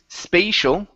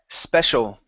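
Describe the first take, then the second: First: The first vowel is a long 'ay' sound. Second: The first vowel is a short 'e' sound. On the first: The speaker calls it wrong. "Instead of saying spay" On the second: The speaker calls it right. "it's going to be a short E sound"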